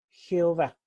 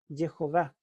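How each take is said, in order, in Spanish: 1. Empieza con el sonido de la J española. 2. Empieza con el sonido de la J inglesa. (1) "lo pronunciamos con J" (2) "En inglés Jehová se dice"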